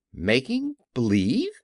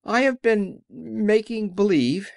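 First: Rising, disbelieving question; incredulous echo. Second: High, slow little-man voice; meek confession. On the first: Dorothy questions the little man's confession, incredulous and rising. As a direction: echo it back as a startled question. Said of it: "cried Dorothy". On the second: The little man confesses to the friends, high and slow. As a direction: draw it out high, owning up. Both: A narrator's reading.

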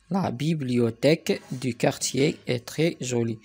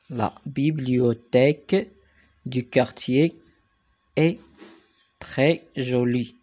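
First: Said in the usual way. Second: Slow, word groups set apart by pauses; slow dictation reading. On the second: Shown as a demonstration. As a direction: dictate it piece by piece for learners. Teacher dictates sentence in slow chunks. (إملاء بشوية، كلمة بكلمة)

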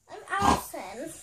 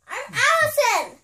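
First: Said in the usual way. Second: Insistent shout. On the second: Real, not acted. Kid insists on being Allison.

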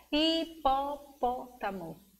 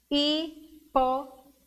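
First: "hipopótamo" slowly in five beats; measured, softer, slow beats in "hipopótamo"; syllable by syllable. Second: "Hipopótamo" with a full pause after every syllable. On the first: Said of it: "Uma, duas". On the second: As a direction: break "Hipopótamo" into hi, po, pó, ta, mo. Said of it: "Cinco sílabas". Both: Shown as a demonstration.

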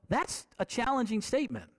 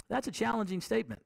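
First: Said in the usual way. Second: Fast, quieter echo to let it sink in; quick, softer repeat. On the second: Shown as a demonstration. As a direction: rush the repeat under your breath.

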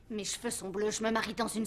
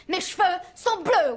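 First: Much softer, resigned; deflated. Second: Louder and slower, exasperated. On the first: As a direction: let it drop in defeat. Repeats it deflated. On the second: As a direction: spell it out in frustration. Says it twice, differently. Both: Acted.

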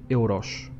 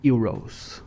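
First: "euros" the Portuguese way, EH-oo-rosh; "euros" in Portuguese, final s as sh; Portuguese pronunciation. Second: "Euros" the English way, YOO-rohz; "Euros" in English, ending in -rohz; English pronunciation. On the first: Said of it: "In Portuguese, you just say". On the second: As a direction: say "Euros" starting with a y sound. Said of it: "how do I say euros?". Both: Shown as a demonstration.

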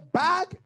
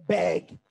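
First: Said in the usual way. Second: Bag drawn out and said as "beg"; local Barbadian pronunciation. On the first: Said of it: "They don't say bag". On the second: Shown as a demonstration. Preacher showing how locals say it, bag as a long "beg". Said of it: "they say bag".

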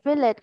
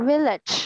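First: "village" ending in a stopped t; wrong dropped ending. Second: "Village" with its ending fully released; correct final ch. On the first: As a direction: say "village" as "vi-let", with no ch. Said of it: "village không nha". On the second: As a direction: model "Village", closing on a clear ch. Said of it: "Nhớ âm cuối nha". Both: Shown as a demonstration.

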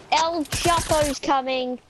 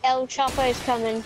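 First: Drawn out. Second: Said in the usual way. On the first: Pretend. Same line again, drawn out.

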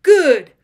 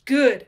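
First: Much louder, higher bellow of the word Good!; furious shout. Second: A louder, clipped snarl of a word. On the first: Georg roaring Good! at Ulrich, full furious shout. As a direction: hurl Good! at him at full volume. Enemies trading threats, repeated word. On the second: Georg snarling at pinned enemy Ulrich, louder. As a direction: growl it out at your foe. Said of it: "snarled Georg". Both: Acted.

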